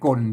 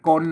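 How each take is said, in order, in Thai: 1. คำนี้มีเสียงเอก 2. คำนี้มีเสียงสามัญ (1) "ใส่ไม่เอกก้นก้นเสียงเสียงไม่เอก" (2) "เสียงสามัญอ่ะก้นอ่ะ"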